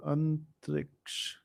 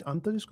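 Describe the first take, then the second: First: Antariksh with k before the final sh; name ending in -ksh. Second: Antarishk with sh before the final k; name ending in -shk. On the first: Host checking a quiz winner's name, ending it -ksh. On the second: Host unsure of a quiz winner's name, ending it -shk. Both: Real, not acted. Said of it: "I'm pronouncing it wrong".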